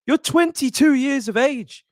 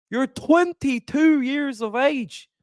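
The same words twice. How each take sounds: First: Said in the usual way. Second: Slow, drawn-out attempt at an Irish accent; a weak stab at a Conor McGregor Irish brogue; hammed-up Irish accent, barely there. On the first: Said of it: "I can't do an Irish accent". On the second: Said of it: "I can't do an Irish accent, Conor McGregor".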